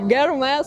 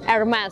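First: The name begins with a G sound. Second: The name begins with a vowel sound. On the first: The speaker calls it wrong. "коверкает разным образом" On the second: The speaker calls it right. "Так вот правильно, ребята, произносить"

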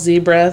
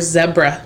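First: Zebra is said the American way. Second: Zebra is said the Australian way.

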